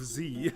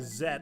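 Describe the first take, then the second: First: The letter is said the American way, zee. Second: The letter is said the British way, zed. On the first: "instead of Z" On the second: "I'm just gonna try to say Z"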